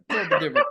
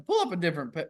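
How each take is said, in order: First: Much higher, breaking into laughter mid-request; laughing. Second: Said in the usual way. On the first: Real, not acted. Friend asking for another map, cracking up. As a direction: laugh through the words. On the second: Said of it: "laugh breaks the repeat".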